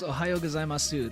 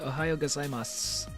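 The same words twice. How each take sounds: First: The final u vowel is fully sounded. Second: The final u vowel is dropped. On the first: Nobody actually says it this way. "Nobody ever says" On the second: This is how people actually say it. "They say"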